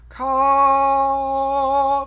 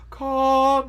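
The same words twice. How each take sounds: First: The vowel is bright, made further forward. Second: The vowel is dark, made far back. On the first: The speaker calls it wrong. "not ka" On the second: The speaker calls it right. "Make it nice and dark. Ka, ... further back in your throat"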